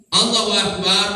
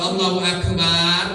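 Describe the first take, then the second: First: The vowel in "bar" is short. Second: The vowel in "bar" is long. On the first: God is the greatest. The speaker calls it right. "Allahu Akbar, Allah Maha Besar" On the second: God is a drum. The speaker calls it wrong. "panjang barnya Allah tuh tabuah"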